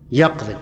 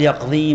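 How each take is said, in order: First: The final vowel is short. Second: The final vowel is long. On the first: The speaker calls it right. "حذف الياء" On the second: The speaker calls it wrong. "ما قال يقضي"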